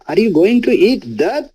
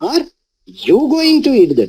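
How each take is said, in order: First: The stress is on the word that. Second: The stress is on the word you.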